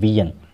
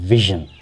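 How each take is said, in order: First: The middle consonant sounds like a 'y'. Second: The middle consonant sounds like a 'zh'. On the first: The speaker calls it wrong. "आप पढ़ते हैं वियन" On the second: The speaker calls it right. "तो लफ्ज़ होता है विजन"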